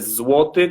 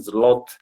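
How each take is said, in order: First: It is said with the native Polish pronunciation. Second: It is said with a Brazilian Portuguese pronunciation. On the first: The speaker calls it right. "mas é zloty" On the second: The speaker calls it wrong. "Os brasileiros pronunciam zloty"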